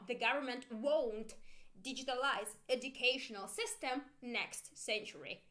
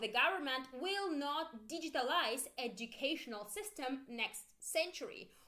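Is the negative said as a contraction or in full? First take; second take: contraction; in full. First: The negative is contracted into one short word. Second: The negative is said in full as two words. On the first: "Or short form" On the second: "Full version first"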